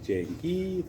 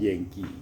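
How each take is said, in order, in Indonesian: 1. Kata ini diawali dengan bunyi 'j'. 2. Kata ini diawali dengan bunyi 'y'. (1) "Kalau bicara di E Y D itu berarti itu Jengki" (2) "Harusnya kan Yengki"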